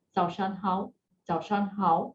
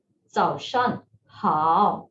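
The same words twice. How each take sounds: First: 早上好 rushed, with 好 short and unstretched; 早上好 quick and flat, 好 not stretched; beginner's 早上好. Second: 早上好 slow, with 好 stretched falling then rising; 早上好 slow, 好 dipping down then up; correct 早上好. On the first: Retold or imitated. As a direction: imitate a beginner hurrying through 早上好. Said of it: "for beginners, sometimes they say". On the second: Shown as a demonstration. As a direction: model 早上好 with a long dipping 好. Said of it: "you are stretching it".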